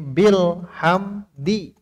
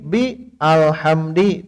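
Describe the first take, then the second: First: The 'a' of 'al' is dropped and linked. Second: The 'a' of 'al' is pronounced separately. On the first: The speaker calls it right. "Ada bi kan wasol. Jadi bil hamdi" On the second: The speaker calls it wrong. "Tidak begini, bi alhamdi, tidak"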